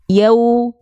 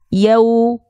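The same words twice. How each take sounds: First: The syllable is said softly. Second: The syllable is said softly.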